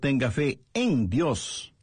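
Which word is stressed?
fe. The stress is on the word fe.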